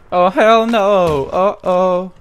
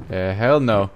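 First: Scared refusal. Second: Said in the usual way. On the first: Real, not acted. Uh, hell no.

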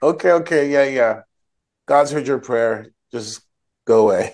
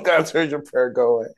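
First: Hurried, impatient okays, waving her off; dismissive brush-off. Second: Higher, amused brush-off; a hammed-up, bored shooing away; mock dismissive priest. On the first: Retold or imitated. Priest brushing off the weeping woman, dismissive and impatient. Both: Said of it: "Eli is basically like".

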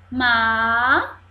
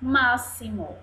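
First: "Máximo" broken into má, xi, mo with long pauses; syllable by syllable. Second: Said in the usual way. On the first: Shown as a demonstration. Teacher shows three syllables, "Máximo" widely split. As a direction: stretch and separate each syllable of "Máximo". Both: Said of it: "Três sílabas".

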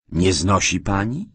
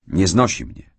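First: Astonished echo question, rising on "pani"; startled query with a rising end; surprised. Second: Said in the usual way. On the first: A narrator's reading. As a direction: repeat it back in disbelief. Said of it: "zawołałem zdziwiony".

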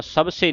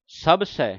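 First: ਸਭ ਸੇ with close "se"; wrong single-lav ending. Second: ਸਭ ਸੈ with open "sai"; two-lava ending. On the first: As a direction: end ਸਭ ਸੇ on a narrow e. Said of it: "ਨਹੀਂ ਪੜ੍ਹਨਾ". (ਸਭ ਸੇ ਦਾ ਅੰਤ ਇੱਕ ਲਾਂ ਨਾਲ) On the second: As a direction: widen the end of ਸਭ ਸੈ to "ai". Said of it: "ਸੱਸੇ ਦਲਾਵਾਂ". (ਸਭ ਸੈ ਦਾ ਅੰਤ ਦੁਲਾਵਾਂ ਨਾਲ) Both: Shown as a demonstration.

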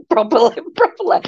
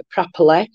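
First: High-pitched mock-posh "properly"; hammed-up posh accent, pitched up and laughing. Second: Said in the usual way. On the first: Proving she can talk properly, badly faked posh voice. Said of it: "imagine me doing a posh voice". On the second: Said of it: "didn't even come out right".

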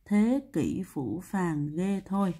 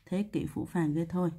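First: Slow, each word held out; slow recitation. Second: Said in the usual way. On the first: Shown as a demonstration. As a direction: spell out the phrase word by word. Teacher recites memory formula slowly. (đọc chậm, kéo dài từng chữ)

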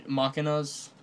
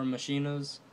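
First: Machinas said MAH-kin-as; first pronunciation. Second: Machinas said ma-SHEEN-as; alternate pronunciation. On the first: Host tries one name for the decks, machinas with a K. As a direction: say machinas with a hard K sound. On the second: Host offers the other name, machinas with SH as in machine. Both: Shown as a demonstration. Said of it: "ma-, machinas or machinas".

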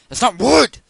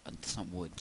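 First: Sudden high, very loud shout; full-blast, high-pitched outburst; exasperated yell. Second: Soft, low-energy remark; subdued, softer grumble; low-key complaint. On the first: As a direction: explode at the game. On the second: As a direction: say it quietly to yourself. Muttered first take before the yell. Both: Real, not acted.

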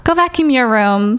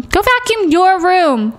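First: Said in the usual way. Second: Higher, slower bossy "Go vacuum your room"; mock nagging parent, stretched slowly; stern parent order. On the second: Shown as a demonstration. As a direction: drag it out like a fed-up mom.

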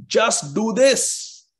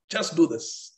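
First: "just do this" higher, louder and slow, each word hit; emphatic. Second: Said in the usual way. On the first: Shown as a demonstration. Teacher demonstrating emphasis to the class, slow and forceful. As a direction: stretch out "just do this" with weight. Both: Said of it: "Means emphasis".

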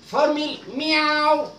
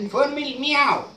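First: Formal meow said very slowly, drawn out; slow teaching take; slow demo. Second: Said in the usual way. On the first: Shown as a demonstration. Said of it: "teaching the word formal meow". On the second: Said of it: "repeated at normal pace".

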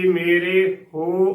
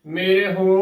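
First: ਮੇਰੇ ਹੋ slowly, with a full long 'ray'; ਮੇਰੇ ਹੋ as a stretched 'may-ray ho'; long wrong 're'. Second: ਮੇਰੇ ਹੋ as 'may-ri ho' with a very short second vowel; barely touch the end of ਮੇਰੇ before ਹੋ; ਮੇਰੇ ਹੋ with a quick, light 'r'; light sihari. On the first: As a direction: draw out both vowels of ਮੇਰੇ before ਹੋ. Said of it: "ਗਲਤ ਉਚਾਰਨ ਹੋਵੇਗਾ". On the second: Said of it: "ਬਿਲਕੁਲ ਹਲਕੀ ਬੋਲਣੀ ਹੈ". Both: Shown as a demonstration.

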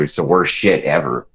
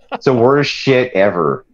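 First: Said in the usual way. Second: It's the worst shit ever, drawn out higher; slower, higher repeat for emphasis. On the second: Shown as a demonstration. Repeating his complaint to friends, slower and higher. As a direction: lean into it the second time, slowly.

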